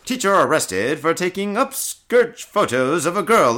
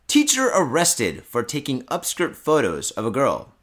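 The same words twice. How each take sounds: First: It is read in a put-on radio-announcer voice. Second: It is read in an ordinary speaking voice.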